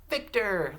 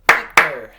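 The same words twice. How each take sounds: First: Victor high and loud, in one piece; high, loud Victor with a falling end; name called out. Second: Victor in two very loud beats; clapped syllables. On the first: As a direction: call out Victor whole for the class to echo. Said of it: "say this name with me". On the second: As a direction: clap out Vic-tor, a beat per syllable. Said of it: "Let's clap it". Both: Shown as a demonstration.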